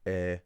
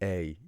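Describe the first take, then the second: First: The vowel stays as one steady sound. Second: The vowel glides from one sound into another. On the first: This is the Irish single long vowel. The speaker calls it right. "just try and practice by keeping your jaw put" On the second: This is the English two-part vowel. The speaker calls it wrong. "you can tell I'm moving my jaw"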